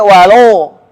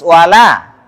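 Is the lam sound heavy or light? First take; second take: heavy; light. First: The lam is heavy and thick. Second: The lam is light and thin. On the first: The speaker calls it wrong. "Enggak boleh" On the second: The speaker calls it right.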